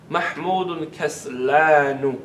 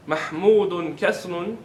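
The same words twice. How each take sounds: First: Slow "kaslanu" with a long held "laa"; teacher's drawn-out model of "kaslanu"; emphatic form kaslanu. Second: Said in the usual way. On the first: Shown as a demonstration. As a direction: stretch the middle of "kaslanu", falling at the end. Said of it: "How would you say that?". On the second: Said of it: "Instead of saying Mahmud is lazy".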